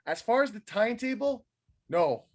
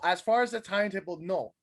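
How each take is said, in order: First: It is said in a put-on imitation voice. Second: It is read in the speaker's ordinary voice. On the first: "Should I do it in a Samoa Joe voice?"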